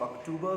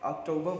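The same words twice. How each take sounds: First: अक्टूबर with 'too' in the middle; less correct pronunciation. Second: अक्टूबर as 'ok-TOH-buh', final r silent; preferred English pronunciation. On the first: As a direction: say अक्टूबर as 'ok-TOO-buh'. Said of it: "लेकिन गलत है वो". (अक्टूबर में बीच में 'टू' बोलें) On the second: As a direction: round 'toh' in the middle of अक्टूबर. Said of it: "बोले ज़्यादा अच्छा रहेगा". (अक्टूबर को 'ऑक्टोब' बोलें, 'र' silent) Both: Shown as a demonstration.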